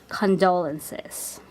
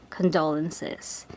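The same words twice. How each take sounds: The two takes are said the same way.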